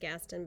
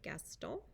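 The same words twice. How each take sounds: First: The name is said with an English pronunciation. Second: The name is said with a French pronunciation. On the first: "We call her Missus Gaston" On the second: "we're going to say it in the French way"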